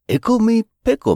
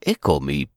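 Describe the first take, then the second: First: Squeaky high Ickle; high squeal. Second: Said in the usual way. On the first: Acted. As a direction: sing it out high and bright. Playful rhyme, squeaky first take.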